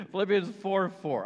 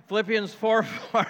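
First: Said in the usual way. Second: Slow, louder, higher mock bark of the verse. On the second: Pastor jokingly barks the verse at his staff, mock loud. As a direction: pretend to snap it at the staff. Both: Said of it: "I'm kidding".

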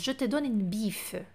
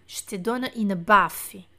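First: "biffe" said like Portuguese bife, slow and soft; wrong word biffe. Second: "baffe" with a clear open a, slow; correct baffe. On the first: Teacher reads the learner's wrong word biffe slowly. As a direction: read "biffe" slowly with an i sound. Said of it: "Não é bife". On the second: Teacher corrects the word to baffe, slow and clear. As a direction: say "baffe" slowly with an a. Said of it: "é baffe". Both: Shown as a demonstration.

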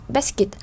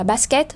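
First: "basket" said the English way, weak second syllable; English pronunciation. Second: "basket" said the French way, full "-ket" ending; French pronunciation. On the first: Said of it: "các từ khác như chữ basket". (đọc "basket" kiểu tiếng Anh) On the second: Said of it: "tiếng Pháp đọc là basket". (đọc "basket" kiểu tiếng Pháp) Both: Shown as a demonstration.

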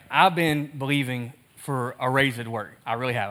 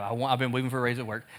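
First: Retelling Thomas. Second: Fast, soft repeat of the plea; rushed retelling. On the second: Pastor rushing through Thomas's repeated plea, fast and soft. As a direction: hurry through the repeat quietly. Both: Retold or imitated. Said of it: "He's like".

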